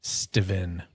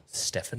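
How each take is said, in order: First: "Steven" said STEE-ven, with a v sound; Steven pronunciation. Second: "Steffen" said STEF-fen, with an f sound; Steffen pronunciation. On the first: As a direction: say "Steven" with a long e and v in the middle. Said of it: "he spells his name with a S T E V E N". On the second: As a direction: say "Steffen" with a short e and f in the middle. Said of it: "not S T E P H A N". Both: Shown as a demonstration.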